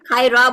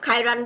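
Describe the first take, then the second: First: The word ends on a vowel without n. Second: The word ends with an n sound. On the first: "খায়রা বললে" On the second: "মানে খায়রান বলি ... ওইটাই সুন্দর শোনায়"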